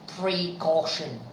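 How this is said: A clear break falls between pre and caution. "I emphatically separated the expression, the two syllables, pre and caution"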